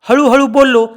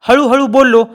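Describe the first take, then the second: No difference in how they are said.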